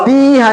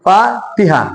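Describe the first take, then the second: First: तीहा with ती drawn long and higher; wrong long vowel. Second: फातिहा with long फा and short ति; correct short vowel. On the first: Teacher warns what not to read, तीहा with long ती. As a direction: overstretch the ती in तीहा. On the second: Teacher corrects the reading, फातिहा with short ति. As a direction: keep ति quick in फातिहा after a held फा. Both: Shown as a demonstration. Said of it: "तीहा नहीं आएगा".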